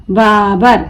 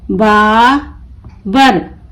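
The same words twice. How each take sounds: First: Said in the usual way. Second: Babar very slow, long बा, pause, बर; broken into syllables. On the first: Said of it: "मिलाकर पढ़ें". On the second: Shown as a demonstration. Teacher breaking the word for learners, Babar in slow pieces. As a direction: pull Babar apart into बा and बर. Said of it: "तोड़ तोड़ कर पढ़ूंगी".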